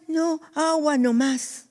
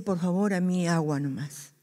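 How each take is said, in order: First: Raised pitch, slow, insistent refusal; high firm refusal. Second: Softer, lower, modest request; soft polite refusal. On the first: The brother insisting on only water, high and slow. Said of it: "Y dice". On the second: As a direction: decline the drink quietly. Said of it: "este hermano dice". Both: Retold or imitated.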